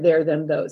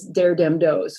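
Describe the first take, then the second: First: The words begin with a th sound. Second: The words begin with a d sound. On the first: "for there them those" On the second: "this is known as dare dem those"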